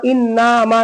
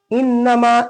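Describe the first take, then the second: First: "इन्नामा" with "ना" wrongly held long; wrongly lengthened vowel. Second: "इन्नमा" with short "न", long "मा"; short noon. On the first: Teacher warning against this reading, wrongly lengthened vowel. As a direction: stretch "ना" as well as "मा". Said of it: "इन्नामा नहीं पढ़ेंगे". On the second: Teacher contrasting the right reading, short noon. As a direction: hurry "न", stretch "मा". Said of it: "नून को जल्दी मीम को खींचेंगे". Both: Shown as a demonstration.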